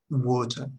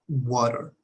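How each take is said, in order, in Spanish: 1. Termina con una vocal abierta parecida a la «a». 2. Termina con un sonido «er» con coloración de r. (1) "La versión británica sería, bueno, al menos de la región de Inglaterra" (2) "Entonces tenemos americana, Estados Unidos"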